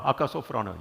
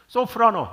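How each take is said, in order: First: Said in the usual way. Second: 소프라노 sung out high and loud like a soprano; high soprano note. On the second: Shown as a demonstration. Pastor imitating a soprano for the congregation, high and loud.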